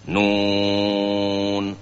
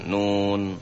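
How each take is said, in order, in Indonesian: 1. Vokalnya dibaca sangat panjang. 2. Vokalnya pendek. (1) "Nun enam" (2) "bukan nun"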